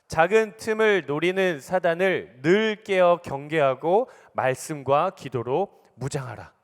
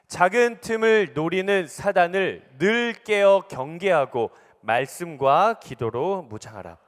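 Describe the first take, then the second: First: It is read at an ordinary loud volume. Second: It is read even louder, as a proclamation.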